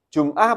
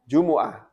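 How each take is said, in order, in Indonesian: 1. Vokal tengah dihilangkan, sehingga menjadi dua suku kata. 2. Vokal u di tengah menghasilkan tiga suku kata.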